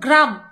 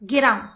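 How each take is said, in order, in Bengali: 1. প্রথম দুটি ব্যঞ্জন একসঙ্গে জুড়ে থাকে। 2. একটি স্বরধ্বনি প্রথম দুটি ব্যঞ্জনকে আলাদা করে দেয়। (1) "যেমন গ্রাম বলতে পারে না" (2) "এরকম ভেঙে ভেঙে বলে"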